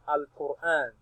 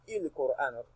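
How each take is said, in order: First: The word begins with an a vowel. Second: The word begins with an i vowel. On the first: The speaker calls it right. "We now read it as al-Qur'an" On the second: The speaker calls it wrong. "You will never hear ... il-Qur'an"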